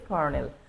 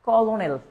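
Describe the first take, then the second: First: The word is said as kor-nel, two syllables. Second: The word is said as ko-lo-nel, three syllables. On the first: "আমরা বলি কি? কর্নেল" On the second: "এটা হচ্ছে কলোনেল"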